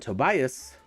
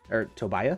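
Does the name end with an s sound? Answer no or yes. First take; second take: yes; no. First: The name ends with an s sound. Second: The name ends without an s sound.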